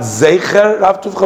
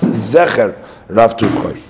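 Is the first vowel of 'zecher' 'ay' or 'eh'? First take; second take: ay; eh. First: The first vowel of the first word is 'ay'. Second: The first vowel of the first word is 'eh'. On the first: The speaker calls it wrong. "And not a tzere" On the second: The speaker calls it right. "Zion has a segel"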